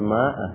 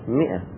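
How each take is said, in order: First: The first vowel is a long 'a'. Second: The first vowel is a short 'i'. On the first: The speaker calls it wrong. "بعضهم يقول ماء، غلط" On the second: The speaker calls it right. "تلفظ اللفظ الصحيح مئة"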